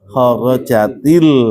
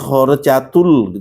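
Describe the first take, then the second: First: The linking vowel after khorojat is i. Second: The linking vowel after khorojat is u. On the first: The speaker calls it right. "Khorojat al baita dibacanya apa? Khorojatil ya" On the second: The speaker calls it wrong. "Nggak boleh di khorojatul gitu"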